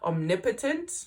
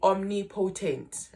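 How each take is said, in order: First: It is said in a plain, ordinary accent. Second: It is said in an imitated comrade-style accent.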